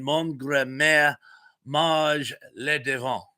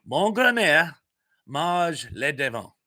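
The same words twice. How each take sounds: First: Careful French, slightly slowed; amateur French pronunciation; French phrase attempt. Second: French phrase repeated, slower ending; deliberate second take of the French line; repeating the French. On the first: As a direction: try the French phrase properly. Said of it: "if I said that properly". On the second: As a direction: say it again in your best French. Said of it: "Tell me what I just said, and I will repeat it". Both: Shown as a demonstration.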